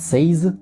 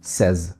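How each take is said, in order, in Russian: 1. Гласный звучит как гласный в 'say'. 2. Гласный звучит как гласный в 'bed'. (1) "Часто многие произносят says" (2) "Мы произносим его обычным звуком э"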